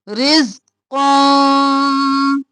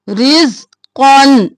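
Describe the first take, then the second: First: The final n is hidden in the nose. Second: The final n is sounded out clearly. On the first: The speaker calls it right. "इख्फा करना है, नाक में आवाज को छिपाना है" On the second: The speaker calls it wrong. "यहाँ पर ऐसे नहीं पढ़ना"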